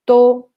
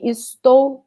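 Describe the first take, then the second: First: The word is said without its first syllable. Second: The word is said with its first syllable. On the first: "we just say tô" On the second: "Instead of saying estou"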